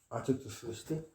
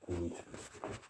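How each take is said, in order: First: Said in the usual way. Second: A hushed unvoiced echo; breathy whisper answering himself. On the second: Shown as a demonstration. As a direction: whisper it back, much softer. Repeated line, voiced then whispered.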